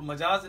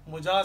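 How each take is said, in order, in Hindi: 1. पहला स्वर 'a' है। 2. पहला स्वर 'u' है। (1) "तो मजाज नहीं" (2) "बल्कि मुजाज सही लफ्ज़ है"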